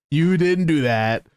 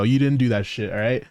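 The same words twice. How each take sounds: First: Slow, drawn-out stress on "didn't"; slow teasing emphasis. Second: Said in the usual way. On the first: Acted. Streamer teasing his co-op friend, slow stressed "didn't". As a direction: lean on "didn't", stretching "You didn't do that".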